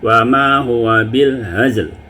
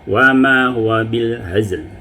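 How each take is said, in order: First: The vowel before the final consonants is stretched long. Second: The vowel before the final consonants is kept short. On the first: The speaker calls it wrong. "itu salah ya" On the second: The speaker calls it right.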